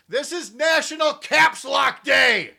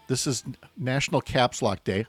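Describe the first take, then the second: First: It is shouted loudly, like caps lock. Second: It is said at a normal, quiet volume.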